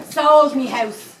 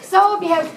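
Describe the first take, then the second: First: "sold me house" drawn out, each word heavy; slow indignant stress. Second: "Sold me house" jumped higher and louder, punching "Sold"; higher outraged stress. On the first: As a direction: lean on "sold", said slowly and weighed down. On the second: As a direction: fire "Sold" out in high outrage. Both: Acted. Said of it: "repeats for emphasis".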